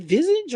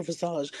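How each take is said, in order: First: "visage" in the first, anglicized way; first pronunciation option. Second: "visage" in the second, French-like way; alternative pronunciation. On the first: Host unsure of the word offers "visage" in its first pronunciation. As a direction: try "visage" one way, as a question. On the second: Host unsure of the word offers "visage" in its alternative pronunciation. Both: Shown as a demonstration. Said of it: "Or is it visage or visage?".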